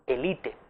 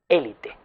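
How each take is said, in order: First: Elite stressed on the second syllable, e-LI-te; French-style elite, stress on LI; llana elite. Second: Élite stressed on the first syllable, É-li-te; esdrújula élite. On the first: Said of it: "Es una forma llana". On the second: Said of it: "Lo utilizamos como esdrújula". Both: Shown as a demonstration.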